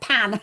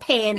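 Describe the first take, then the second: First: The vowel has a non-Australian accent. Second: The vowel has an Australian accent. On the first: The speaker calls it right. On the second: The speaker calls it wrong.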